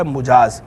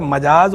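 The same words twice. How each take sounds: First: मुजाज with short "u" after the m; pesh on meem. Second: मजाज with short "a" after the m; zabar on meem. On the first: Scholar separating two lookalike words, मुजाज with a "u". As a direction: say "mu-" opening मुजाज. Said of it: "मुजाज मीम के पेश के साथ". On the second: Scholar separating two lookalike words, मजाज with an "a". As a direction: say "ma-" opening मजाज. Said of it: "मीम के ज़बर के साथ जो मजाज है". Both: Shown as a demonstration.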